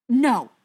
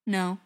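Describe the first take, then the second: First: Loud, higher, incredulous no; raised-voice disbelieving denial; disbelief. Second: Simple, unelaborated no; brief, uncomplicated denial; said simply. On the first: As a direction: refuse to believe it, loudly. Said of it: "shaking his head in disbelief". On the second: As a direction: answer simply, slightly louder. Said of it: "Briar said simply". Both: A narrator's reading.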